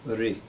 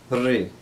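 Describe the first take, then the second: First: The rolled vowel is short. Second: The rolled vowel is held longer. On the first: "It's a rolled R sound" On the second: "It's rolled a little bit longer"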